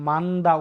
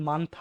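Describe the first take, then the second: First: The middle consonant is a plain voiced d. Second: The middle consonant is an aspirated t. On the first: The speaker calls it wrong. "এটা কিন্তু আপনার মান্দা উচ্চারণ হবে না" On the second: The speaker calls it right. "এটা কিন্তু মান্থা হবে উচ্চারণ"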